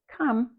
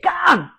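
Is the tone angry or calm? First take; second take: calm; angry. First: It is said in a calm, normal tone. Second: It is said in an angry, frustrated tone.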